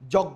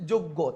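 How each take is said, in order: First: The first vowel is an open 'aw' sound. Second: The first vowel is a closed 'o' sound. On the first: The speaker calls it wrong. "কেন যজ্ঞ বলতেছি না" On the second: The speaker calls it right. "আমরা কি বলছি যোগ্য, তাহলে ও এর মতো হয়ে গেছে"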